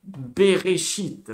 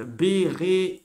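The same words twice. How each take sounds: First: Bereshit slowly, syllable by syllable: be-re-shit; slow spelled-out reading. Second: Bereshit said at normal speed as one word, ending on a rise; smooth reading. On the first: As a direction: read Bereshit out slowly, sounding each syllable. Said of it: "On va chez la grande lettre". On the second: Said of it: "Je répète, on lit en diagonale". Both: Shown as a demonstration.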